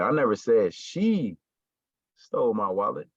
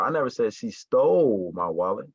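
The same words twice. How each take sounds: First: The stress falls on the word she. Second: The stress falls on the word stole. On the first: Someone else took the wallet. "somebody did it, but it wasn't her" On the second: She took it but did not steal it. "So it's like she didn't steal my wallet"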